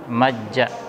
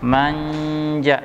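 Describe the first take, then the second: First: The n merges into a doubled j. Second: The n is hidden with a nasal hum. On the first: The speaker calls it wrong. "tidak mungkin orang membaca dengan majja" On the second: The speaker calls it right. "kita membacanya dengan samar"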